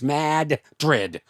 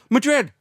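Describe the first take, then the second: First: Said the local way, with a clear D at both ends. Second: Said like the Spanish city, without the doubled D. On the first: This is how the locals insist it is said. "Gotta say the D twice" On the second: This is how an outsider says it. "like Spain, like the original"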